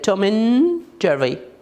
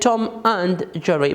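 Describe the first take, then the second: First: The word 'and' is reduced and linked. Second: The word 'and' is pronounced in full. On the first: "but how do we say it?" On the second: "We write it Tom and Jerry"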